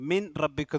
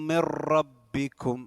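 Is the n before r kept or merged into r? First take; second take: kept; merged. First: The n is pronounced clearly before the r. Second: The n merges into a doubled r sound. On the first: The speaker calls it wrong. "ഓതരുത്" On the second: The speaker calls it right. "സാക്കിനായ നൂനെ റായിലേക്കും ഇദ്ഗാം ചെയ്യണം"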